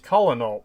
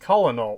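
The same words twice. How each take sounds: First: The word is pronounced as it is spelled. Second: The word is pronounced as it is spelled.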